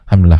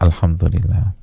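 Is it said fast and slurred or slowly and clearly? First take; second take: fast, slurred; slow, clear. First: It is said fast and slurred. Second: It is said slowly and clearly.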